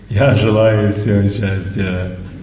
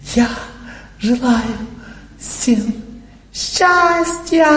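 First: It is said in a cheerful mood. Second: It is said in a showy, emotional way.

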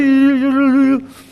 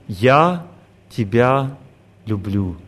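First: It is rattled off quickly, mechanically repeated. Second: It is said once, calmly and with feeling. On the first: The words are repeated without any feeling behind them. The speaker calls it wrong. "успокойся, скажи нормально" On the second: The words come from remembering real love. The speaker calls it right. "Я начинаю вспоминать свою любовь и говорю"

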